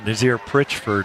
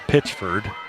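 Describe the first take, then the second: First: The name starts with a 'pr' sound. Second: The name starts with a plain 'p' sound. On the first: The speaker calls it wrong. "I pronounced that wrong incorrectly for about a year" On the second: The speaker calls it right. "It's Pitchford"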